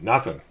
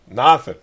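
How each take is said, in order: First: Said in the usual way. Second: Emphatic nothing. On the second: Real, not acted. Repeats "nothing" in disbelief.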